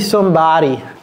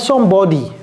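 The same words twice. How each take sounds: First: The first vowel sounds like an a. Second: The first vowel sounds like an o. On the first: The speaker calls it right. "il a dit somebody ... c'est comme si c'était un A" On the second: The speaker calls it wrong. "c'est pas somebody"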